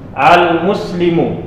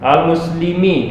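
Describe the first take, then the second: First: The word ends with the vowel u. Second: The word ends with the vowel i. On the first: The speaker calls it right. "mimnya dibaca dia baris dhammah" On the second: The speaker calls it wrong.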